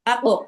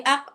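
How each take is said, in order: First: "আ কফ" with a doubled, rebounding ক; qalqalah echo. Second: "আক" stopped on one ক, no echo; single closed sound. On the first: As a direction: sound the ক in "আ কফ" twice, bouncing off it. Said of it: "সেটা দুইবার আসবে". ("আ কফ"-এ ক-এর দ্বিত্ব উচ্চারণ) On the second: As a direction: say "আক" with the ক only once, no bounce. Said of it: "একবার উচ্চারণ হয়েছে". ("আক"-এ ক একবার, প্রতিধ্বনি ছাড়া) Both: Shown as a demonstration.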